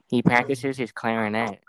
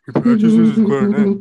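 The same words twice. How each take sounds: First: Said in the usual way. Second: Very loud, high cartoon scream; full-out high-pitched yell. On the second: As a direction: scream it like an outraged cartoon character. Reads screamed chat line in character.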